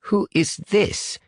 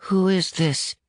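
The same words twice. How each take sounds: First: High, slow British demand; guarded British boy. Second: Put-on much higher, small boy's voice; young caller. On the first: Acted. British boy questions an unknown caller, slow and guarded. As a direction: draw it out in a British accent. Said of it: "asked Ian in his stiffest British accent". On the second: Unknown boy phones the command center, high and wary. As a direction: pitch it high like a wary child.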